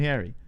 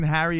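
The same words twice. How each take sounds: First: Harry said as "hairy"; "Harry" with the vowel of "hair"; contrasted pronunciation. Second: Harry with a short "a" as in "hat"; "Harry" with an open "a"; contrasted pronunciation. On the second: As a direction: say "Harry" with the "cat" vowel. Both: Shown as a demonstration. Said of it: "the difference between Harry and Harry".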